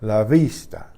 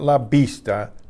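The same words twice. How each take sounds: First: The v is a soft buzz without closure. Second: The v is a fully stopped b sound. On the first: The speaker calls it right. "It's almost like a B that didn't quite explode. It's a buzz" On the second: The speaker calls it wrong.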